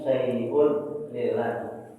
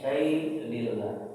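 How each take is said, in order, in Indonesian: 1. Akhiran 'un' diucapkan penuh. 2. Akhiran 'un' dihilangkan di antara kata.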